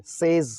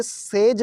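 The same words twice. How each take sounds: First: सेज as sez, ending in z; buzzing z closing सेज; correct says pronunciation. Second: सेज as sej, ending in j; hard j closing सेज; mispronounced says. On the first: Teacher modelling the right ending, सेज as sez with a z. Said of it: "बल्कि ये सेज है". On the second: Teacher showing the wrong ending, सेज as sej with a j. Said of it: "तो ये सेज नहीं है". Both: Shown as a demonstration.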